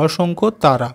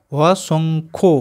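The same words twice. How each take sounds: First: Said in the usual way. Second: অসংখ্য stretched very slowly, each sound held; slow blended reading of অসংখ্য; drawn-out blending. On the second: Shown as a demonstration. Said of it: "দন্ত স অনিষ্কার".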